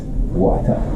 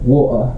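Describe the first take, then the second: First: It is said with an American English accent. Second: It is said with a British English accent. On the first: "as opposed to like American English" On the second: "English English"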